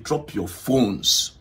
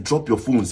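First: Drawn-out mock police command; imitated loud order. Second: Said in the usual way. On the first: Officer ordering everyone to drop phones, slow emphatic imitation. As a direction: stretch each word like an officer making sure all hear. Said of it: "He made sure he made it loud". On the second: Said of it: "the police guy said".

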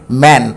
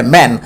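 First: "ম্যান" said as "man", with an open "ae"; open "ae" vowel. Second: "ম্যান" said as "men", with an "eh" vowel; short "eh" in the middle of "ম্যান". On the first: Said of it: "এ হবে". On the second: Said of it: "ইয়ের উচ্চারণ এর মতো হবে". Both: Shown as a demonstration.

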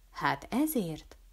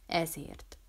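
First: Slow, softened "Hát ezért?" as a question; "Hát ezért?" as a mild, relenting question. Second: Soft, falling "Ezért." as an answer; quiet confirmation. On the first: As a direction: ask "Hát ezért?" gently, drawn out. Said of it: "enyhült meg Ülkei Ádám". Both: A narrator's reading.

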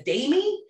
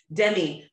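First: "Damie" with a long AY in the first syllable; Scottish-accented Demi. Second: Said in the usual way. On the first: Retold or imitated. Retelling the Scottish girl's name, Scottish "Damie". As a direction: say "Damie" as DAY-mee. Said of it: "with a Scottish accent, I was hearing it". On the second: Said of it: "but, like, with a Scottish accent".

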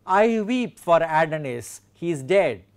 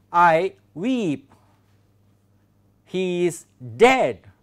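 First: Connected reading of a verse line; verse quotation. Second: Slow, separated words, stress on "weep" and "dead"; iambic stress. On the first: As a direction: read the line through as one phrase. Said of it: "We have a good example". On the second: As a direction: pick out "weep" and "dead" with long pauses. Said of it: "I have highlighted iambic". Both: Shown as a demonstration.

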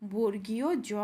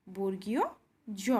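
First: বর্গীয় জ said in one go; name বর্গীয় জ as a letter; teacher naming a letter; correct name. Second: বর্গীয় and জ split by a pause; teacher repeating carefully; slow repeat. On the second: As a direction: repeat বর্গীয় জ word by word, slowly. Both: Shown as a demonstration. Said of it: "এটির শুদ্ধ উচ্চারণ হলো".

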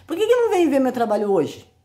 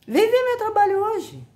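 First: Rising, indignant challenge to critics; why not, said with indignation; exasperated question. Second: Squeaky high, defiant invitation; high-pitched challenge. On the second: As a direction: come see it, in a high defiant voice. Challenging critics, exasperated. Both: Real, not acted.

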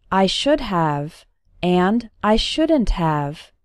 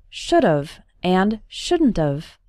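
First: Said in the usual way. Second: "should've and shouldn't've" run together as one quick word each; contracted "should've and shouldn't've" like fast speech; fast reduced forms. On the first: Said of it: "When spoken fast". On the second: Shown as a demonstration. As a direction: squash "should've and shouldn't've" into short reduced sounds. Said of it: "When spoken fast, these phrases sound like".

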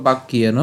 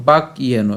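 First: "বাক্যেন" run together as bak-kiyeno; joined pronunciation. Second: "বাক্যেন" in two parts, bak, yeno; split pronunciation. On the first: Teacher showing it said together, "বাক্যেন" as one word. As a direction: join "বাক্যেন" into one word without a break. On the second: Teacher reading the broken-up slide, "বাক্যেন" as bak, yeno. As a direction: break "বাক্যেন" after the closed k. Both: Shown as a demonstration. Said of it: "এটাও আমরা একসাথে উচ্চারণ করবো".

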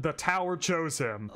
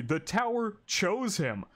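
First: Said in the usual way. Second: The tower chose him, slow and deliberate with weight on tower; slow emphatic restatement. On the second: Real, not acted. To the viewers, insisting Bam is just lucky, slow and emphatic. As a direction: lean on tower, drawing the line out slowly.

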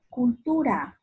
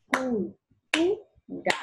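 First: Said in the usual way. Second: "Cultura" as cul, tu, ra with pauses; three slow separate beats for "Cultura"; syllable by syllable. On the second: Shown as a demonstration. Teacher clapping out the word, "Cultura" syllable by syllable. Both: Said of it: "Utiliza las palmadas para separar".

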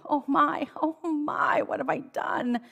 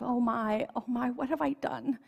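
First: Higher, hammed-up storybook moan. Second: A mild storybook wail, a bit higher; the king wails lightly over his guilt. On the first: Sleepless king moaning about the woman on the island. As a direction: let the king moan it out, voice pitched up. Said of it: "he moaned". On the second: Greedy king gently wailing at night over what he's done. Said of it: "he wailed". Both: A narrator's reading.

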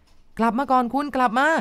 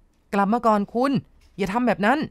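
First: Higher, rising, drawn-out yell; a man screaming for a woman wading out to sea; desperate shout. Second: Urgent call across the water, slowed and raised; a man yelling to a woman walking into the waves; shouting after her. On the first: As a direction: throw the voice out to sea, pleading. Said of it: "ก็ตะโกนขึ้นไป". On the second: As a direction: call her back from the sea. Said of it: "ตัวคุณยศนี่ตะโกนไปนะคะ". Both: A narrator's reading.

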